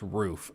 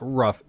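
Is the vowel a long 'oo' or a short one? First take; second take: long; short. First: The vowel is a long 'oo' sound. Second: The vowel is short, like in 'rough'. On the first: The speaker calls it right. "it's two O's, makes an oo sound, it's roof" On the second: The speaker calls it wrong. "I know people up north that pronounce it rough. That's objectively wrong"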